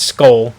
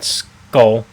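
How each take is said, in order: First: The vowel sounds like an 'oh' sound. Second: The vowel sounds like an 'uh' sound. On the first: The speaker calls it right. "that's an O in his last name" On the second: The speaker calls it wrong. "not Skull"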